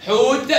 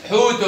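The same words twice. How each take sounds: First: High حوت ending on bare t; sukun ending. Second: حوت said as "hootun"; damma tanween. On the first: Teacher tests the taa, حوت stopped on t. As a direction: say حوت with no final vowel. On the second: Teacher tests the taa, حوت ending in -un. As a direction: add -un to حوت. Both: Shown as a demonstration. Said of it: "نطقت تاء وتاء".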